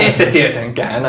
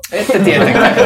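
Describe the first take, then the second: First: Dry slow sarcasm. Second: Mocking repeat with a laugh; laughing mockery. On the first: Acted. NPC repeats it slowly. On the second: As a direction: scoff it back while laughing. NPC mocks, laughing. (nauraen pilkaten)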